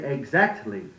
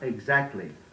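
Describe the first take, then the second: First: Every consonant is clearly sounded. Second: A consonant is slurred or dropped. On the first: The speaker calls it right. "Say exactly" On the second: The speaker calls it wrong. "not exactly"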